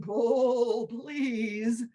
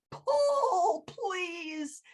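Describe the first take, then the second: First: Calm owl. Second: Very high, strained pull, then a faint please; wounded tree begging for help; pleading tree. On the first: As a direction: say it calmly, encouraging. Owl repeats calmly. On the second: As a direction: beg in pain. Tree begs. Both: Acted.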